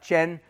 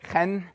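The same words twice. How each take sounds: First: It begins without a throaty, scraping sound. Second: It begins with a throaty, scraping sound. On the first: The speaker calls it wrong. "It's not chen" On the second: The speaker calls it right. "You got to say it with a ch"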